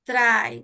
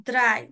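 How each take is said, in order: The two takes are said the same way.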